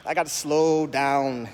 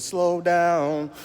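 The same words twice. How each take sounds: First: Slow, drawn-out words; deliberately slow it down. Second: Higher, louder quoted rap line. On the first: Shown as a demonstration. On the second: Retold or imitated. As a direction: call it out like the rap hook. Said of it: "Like Brand Nubian said".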